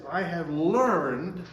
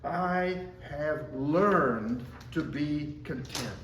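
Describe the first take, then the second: First: "learned" drawn out slowly and louder, rising at the end; stress on learned. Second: "learned" slow and weighty, falling; stress on learned. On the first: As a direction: lean hard into "learned" and lift it. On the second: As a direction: linger on "learned" and let it settle down. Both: Shown as a demonstration. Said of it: "I emphasize the word learn".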